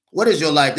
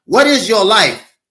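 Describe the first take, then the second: First: Said in the usual way. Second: Higher, louder preaching cry; emphatic shout. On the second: Acted. Preacher challenging the congregation, loud and high. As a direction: throw the question out at the congregation.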